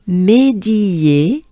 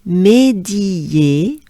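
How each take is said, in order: Both takes have the same delivery.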